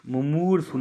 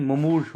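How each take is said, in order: First: मुमूर्षु with a final u, "mu-moor-shu", pitched up; wrong form. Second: मुमूर्ष cut after "rsh", no final u; corrected form. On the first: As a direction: add a short u to the end of मुमूर्षु. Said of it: "मुमूर्षु नहीं". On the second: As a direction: end मुमूर्ष on the consonants, "mu-moorsh". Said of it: "मुमूर्ष होता है". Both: Shown as a demonstration.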